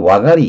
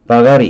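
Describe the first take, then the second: First: The word begins with a W sound. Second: The word begins with a V sound. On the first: "원래 V는 W로 발음해야 돼요" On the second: "바가리 이렇게 발음해야 되겠죠"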